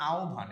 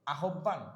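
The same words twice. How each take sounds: First: আহ্বান said as "ao-bhan", breathed bh, no double b; correct pronunciation. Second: আহ্বান said as "a-hob-ban" with a doubled b; hard double b in আহ্বান; wrong pronunciation. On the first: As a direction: model আহ্বান as "aobhan". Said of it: "এটার উচ্চারণ হবে আহ্বান". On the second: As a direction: mispronounce আহ্বান as "ahobban". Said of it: "না, এটার উচ্চারণ হবে". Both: Shown as a demonstration.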